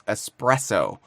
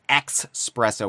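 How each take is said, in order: First: The word begins with a plain 'es' sound. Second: The word begins with an 'eks' sound. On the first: The speaker calls it right. "instead of an S" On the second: The speaker calls it wrong. "with an X"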